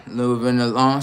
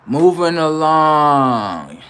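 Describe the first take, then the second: First: Said in the usual way. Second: Higher, very stretched-out call; drawn-out announcement. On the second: Pretend. Comic moving the live on after a roast, long drawn-out call. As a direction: sing out both words long and slow. Announces next topic, then repeats normally.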